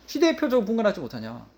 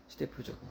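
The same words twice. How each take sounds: First: Said in the usual way. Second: Quiet echo. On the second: Shown as a demonstration.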